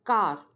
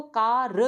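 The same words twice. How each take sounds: First: Said in the usual way. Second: "कार" split as "kaa, ruh"; "कार" wrongly chopped before its r; broken in two. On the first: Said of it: "एक ही उसमें syllable". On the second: Shown as a demonstration. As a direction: say "कार" in two loud pieces, the final r standing alone. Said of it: "दो हिस्सों में".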